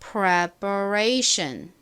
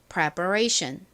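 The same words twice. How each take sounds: First: The word is said slowly and carefully. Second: The word is said at normal speed.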